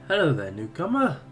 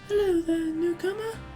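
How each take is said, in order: First: It is said in his natural voice. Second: It is said in a put-on female voice.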